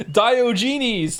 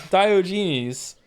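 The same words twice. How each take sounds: First: Diogenes said loud and high, the name finally landed; got the name right. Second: Said in the usual way. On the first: Shown as a demonstration. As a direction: call out Diogenes with triumph, stress on the first syllable. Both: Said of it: "there we go".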